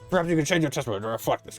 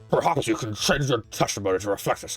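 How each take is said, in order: First: The put-on character voice is more restrained. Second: The put-on character voice is heavily exaggerated.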